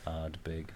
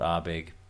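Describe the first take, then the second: First: The D sound in the middle is pronounced. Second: The D sound in the middle is left out. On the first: The speaker calls it right. "It's called Ardbeg" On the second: The speaker calls it wrong. "it's not called Arbeg"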